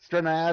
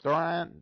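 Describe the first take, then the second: First: The name is said as two syllables, Stranad. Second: The name is said as one syllable, Strand. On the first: The speaker calls it right. "I think it is Stranad" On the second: The speaker calls it wrong. "your brain wants to read it as Strand"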